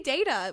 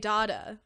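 First: The word is said the American way. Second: The word is said the Australian way. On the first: "which is the American way" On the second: "which is the Australian way"

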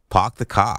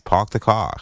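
First: The Boston accent is heavily exaggerated. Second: The Boston accent is toned down. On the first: "You're trying too hard" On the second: "If I try not as hard"

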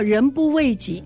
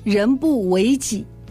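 First: 为 is said with a falling fourth tone. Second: 为 is said with a rising second tone. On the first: People should look out for themselves. The speaker calls it wrong. "很多人都读错了" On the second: People should fulfil their own role. The speaker calls it right. "错的，那是"

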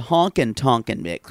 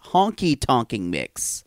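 First: The first word is said as honkin. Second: The first word is said as honky. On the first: The speaker calls it wrong. "Instead of honkin' tonkin' mix, which you keep calling it" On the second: The speaker calls it right. "You've had it as Honky Tonkin' mix"

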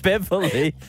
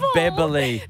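First: The middle consonant is a v sound. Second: The middle consonant is a b sound. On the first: "Not Beverly"

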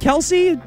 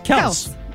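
First: The name is said with more syllables. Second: The name is said with fewer syllables. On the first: The speaker calls it wrong. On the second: The speaker calls it right.

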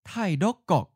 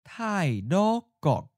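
First: The word is said at natural speed. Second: The word is said slowly. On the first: "First natural speed" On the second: "and then slowly"

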